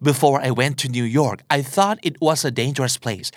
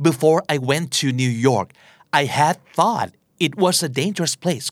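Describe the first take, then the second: First: Very slow English sentence with just "thought"; slow model sentence without had; slow example without had. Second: Very slow, careful English sentence with "had thought"; slow model sentence with had; slow example with had. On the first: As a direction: read it word by word, dropping had. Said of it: "เขาก็อาจจะพูดว่า". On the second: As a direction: read it word by word. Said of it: "ในตัวอย่างนี้คือ". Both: Shown as a demonstration.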